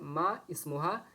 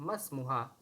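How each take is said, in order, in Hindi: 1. दोनों शब्द अलग-अलग बोले जाते हैं, हमज़ा रहता है। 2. दोनों शब्द मिलाकर बोले जाते हैं, हमज़ा गिर जाता है। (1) "यहाँ पर भी दोस्तों लिखा हुआ है मा इस्मुहा" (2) "लेकिन इसे हम कहेंगे मस्मुहा"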